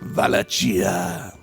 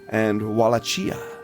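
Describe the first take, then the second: First: The word begins with a V sound. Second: The word begins with a W sound. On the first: The speaker calls it right. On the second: The speaker calls it wrong.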